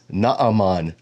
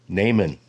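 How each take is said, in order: First: The name is said with Hebrew pronunciation. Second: The name is said with English pronunciation. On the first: "But in Hebrew, it is Naaman the Syrian" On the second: "That's how most people in the English-speaking world pronounce this"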